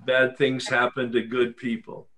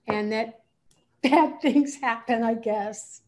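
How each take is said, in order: First: Said plainly, no hedging; firm statement. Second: Unsure, with a nervous laugh; hedging with a laugh. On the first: Shown as a demonstration. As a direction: state it as a settled fact. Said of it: "let's try it again". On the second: Real, not acted. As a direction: trail off and soften it with a laugh. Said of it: "when you say, "I guess," let's try it again".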